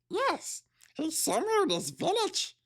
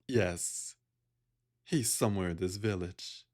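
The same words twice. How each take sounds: First: It is in a happy satyr's voice. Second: It is in another character's voice.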